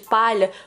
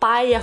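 First: The LH is said as a palatal 'lh'. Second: The LH is said like an 'i' sound.

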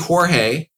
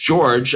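First: The name is said with Spanish sounds. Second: The name is said with English sounds. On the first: This is the original family form of the name. "It's really Jorge" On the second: This is the form he uses day to day. "I use George"

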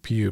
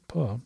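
First: The vowel sounds like the one in 'you'. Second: The vowel sounds like the one in 'duh'. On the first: The speaker calls it wrong. "I always want to call him Mr" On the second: The speaker calls it right. "he pronounces it Puh"

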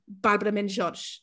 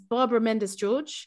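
First: The name is said with Portuguese pronunciation. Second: The name is said with English pronunciation. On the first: "But it's actually" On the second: "My name in an English accent is"

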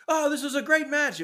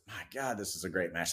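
First: It is said out loud, like announcing. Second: It is said quietly, almost to himself.

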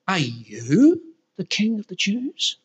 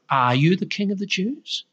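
First: It sounds disbelieving and scornful. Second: It sounds like a genuine, curious question.

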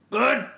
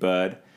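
First: The name is shouted in a sharp, angry tone. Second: The name is said in a warm, friendly tone. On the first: "an angry Bud" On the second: "in such a friendly tone as I just said it"

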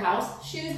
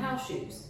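First: The word house is stressed. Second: The word shoes is stressed. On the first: They are meant for wearing inside the house. The speaker calls it right. "Emphasis on house" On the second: They are ordinary shoes for wearing anywhere. The speaker calls it wrong. "because they pronounce them house shoes"

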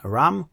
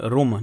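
First: The vowel is an English a-like sound. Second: The vowel is a Polish u sound. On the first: The speaker calls it wrong. "nie ram. Jakby to powiedział Anglik" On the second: The speaker calls it right. "w tej sytuacji mówimy rum"

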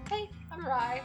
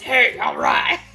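First: It is said softly and mildly. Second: It is said forcefully and boldly. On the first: The young rye tastes gentle and thin. "our 4-year rye that are just like" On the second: The older rye tastes bold and aggressive.

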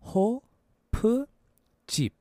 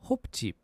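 First: It is said slowly. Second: It is said fast.

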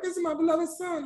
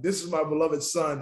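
First: The voice is high-pitched. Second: The voice is low and deep. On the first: The speaker calls it wrong. "with a high pitch going like" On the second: The speaker calls it right. "No, if you think about"

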